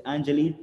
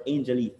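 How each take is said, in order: First: Angelique starting with "an" as in "and"; first-vowel pronunciation AN. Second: Angelique starting like the English word "angel"; first-vowel pronunciation AIN. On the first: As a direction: say Angelique as AN-juh-leek. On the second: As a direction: say Angelique as AIN-juh-leek. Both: Shown as a demonstration. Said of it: "is it Angelique or Angelique".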